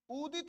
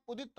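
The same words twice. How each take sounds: First: उदित with a short u, pitched high. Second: Said in the usual way. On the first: Shown as a demonstration. Teacher stresses the short u in उदित, higher. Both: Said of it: "उदित यानी ऊ छोटा".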